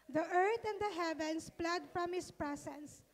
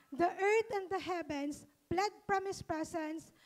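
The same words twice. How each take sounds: The two takes are said the same way.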